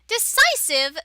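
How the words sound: A piercing, ear-grating character voice. The speaker calls it wrong. "Ow, that hurt my ears"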